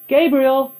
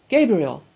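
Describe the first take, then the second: First: Higher, louder call across the room. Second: Said in the usual way. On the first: A narrator's reading. Man calling Gabriel to the phone, loud call. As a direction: shout the name to someone away from the phone.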